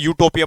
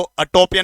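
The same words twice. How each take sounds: First: यूटोपिया started with a clear 'you' sound; यूटोपिया said as 'you-topia' with a y-glide; correct reading. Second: अटोपिया started with a short 'uh', no y-glide; अटोपिया said as 'uh-topia'; wrong reading. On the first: Teacher gives students the right form: यूटोपिया starting on 'you'. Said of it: "यूटोपिया पढ़ते हैं". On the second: Teacher shows students the wrong way: अटोपिया with a plain 'a' start. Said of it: "इसको अटोपिया नहीं". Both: Shown as a demonstration.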